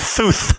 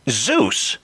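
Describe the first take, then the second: First: The name begins and ends with th sounds. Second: The name begins and ends with z sounds. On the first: "responded with Thuth" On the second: "pronouncing the words using my tongue"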